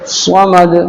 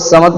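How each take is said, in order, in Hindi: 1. यह भारी, जोरदार s ध्वनि से शुरू होता है। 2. यह सादा, हल्की s ध्वनि से शुरू होता है। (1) "स्वाद है" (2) "बहुत समद कहते हैं"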